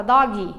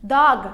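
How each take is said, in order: First: "dog" said as "doggy"; added final I. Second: "Dog" ending on a dry G; dry final G. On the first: Teacher imitates learners' habit, "dog" as "doggy". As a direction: say "dog" with a Brazilian I after the G. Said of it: "A gente vai e coloca um I". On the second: Teacher gives the correct example, "Dog" with dry G. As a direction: say "Dog" with no vowel after the G. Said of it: "tem que fazer um som seco". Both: Shown as a demonstration.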